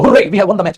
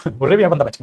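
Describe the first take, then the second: First: A loud cheer of victory; joyful hooray shout. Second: Said in the usual way. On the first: Shown as a demonstration. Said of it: "ये बोल के देखो". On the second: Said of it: "पागल हो गया क्या तू".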